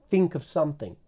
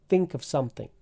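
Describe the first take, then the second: The two takes are said the same way.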